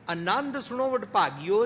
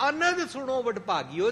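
First: ਆਨੰਦ with a long first vowel, aa-nand; long aa aanand. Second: ਅਨੰਦ with a short first vowel, a-nand; ਅਨੰਦ with a clipped short opening a; short a anand. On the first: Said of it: "'ਚ ਆਨੰਦ ਉਚਾਰਨ ਕਰਾਂਗੇ". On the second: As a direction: keep ਅਨੰਦ short, not ਆਨੰਦ. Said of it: "'ਚ ਆਨੰਦ ਉਚਾਰਨ ਨਹੀਂ ਕਰਾਂਗੇ।". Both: Shown as a demonstration.

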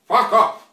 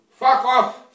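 First: Mock Russian accent, louder, hammering the dismissal; louder angry brush-off. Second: Mock Russian accent, curt and angry; angry brush-off. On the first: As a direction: slam the repeat back at him, louder. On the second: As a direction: bite it off at the friend in the fake Russian accent. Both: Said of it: "He tell me".

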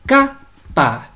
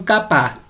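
First: "capa" cut in two, CA-pa, stress on "ca"; split into syllables. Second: Said in the usual way. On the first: Shown as a demonstration. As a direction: hit "ca" in "capa", pause, then "pa". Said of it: "la sílaba tónica es ca". ("capa" separada en sílabas, con fuerza en "ca") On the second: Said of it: "usted la va a separar".

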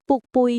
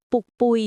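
The two takes are said the same way.

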